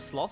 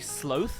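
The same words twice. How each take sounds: First: It is said the British-American way. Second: It is said the Australian way. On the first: "instead of sloth" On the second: "Do Australians say sloth"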